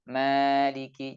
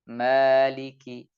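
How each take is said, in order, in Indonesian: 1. Sengau berlanjut ke vokal setelahnya. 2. Sengau berhenti begitu bibir terbuka. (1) "Jadi tetap keluar dari hidung. Ini kurang tepat" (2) "suara dari hidung sudah terputus"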